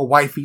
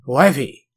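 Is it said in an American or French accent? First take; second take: American; French. First: It is said in the speaker's own American accent. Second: It is said in a put-on French accent.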